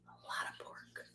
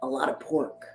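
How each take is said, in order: First: Barely audible whispered echo. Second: Said in the usual way. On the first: Real, not acted. Host repeating the punchline to listeners, whispered. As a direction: repeat it under your breath, unvoiced.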